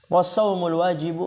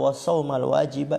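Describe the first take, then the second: First: The word endings carry a 'u' vowel. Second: The word endings carry an 'a' vowel. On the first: The phrase starts a new sentence as its subject. "bisa dibaca was-saumu wa istinafiyah, berarti as-saumu dia mubtada" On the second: The phrase is joined to the preceding object. "itu bisa dibaca juga was-sauma ya. Ya berarti nanti ataf ke as-salawat, mansub"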